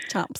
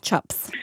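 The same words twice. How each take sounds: First: "Chaps" as an accented "chips"; "Chaps" with the vowel moved from I toward A; shifted vowel. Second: Said in the usual way. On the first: Shown as a demonstration. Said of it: "It's like the chips thing". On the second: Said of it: "how you say it".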